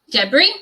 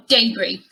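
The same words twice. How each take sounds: First: "debris" as DEB-ree, short e; first British pronunciation. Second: "debris" as DAY-bree; second British pronunciation. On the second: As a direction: say "debris" with a long ay first. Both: Shown as a demonstration. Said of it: "you have two possible pronunciations".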